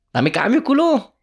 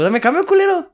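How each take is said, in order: First: High, loud demand for change; annoyed demand. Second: Very high, loud shouted repeat; angry shout. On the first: Tourist demands his change from the Egyptian vendor, annoyed. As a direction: bark it at the vendor. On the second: Tourist shouts at the vendor for his change, now furious. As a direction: yell it this time, fed up. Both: Retold or imitated.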